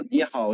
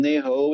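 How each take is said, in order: First: "ni hao" as "nee how"; Mandarin NI HAO. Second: "ni hao" said as "nay ho"; Cantonese NI HAO. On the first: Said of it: "in Mandarin". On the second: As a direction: greet in Cantonese, "ni hao" becoming "nei hou". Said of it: "in Cantonese". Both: Shown as a demonstration.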